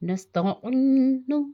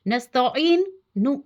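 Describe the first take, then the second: First: The final 'nu' is joined lightly without a break. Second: The final 'nu' is split off after a break. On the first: The speaker calls it right. "हल्का-सा" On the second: The speaker calls it wrong. "ये नहीं कि नस्तईन नु नस्तईन नु ऐसे नहीं"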